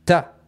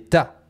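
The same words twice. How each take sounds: First: The words merge into a single syllable. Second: The words merge into a single syllable.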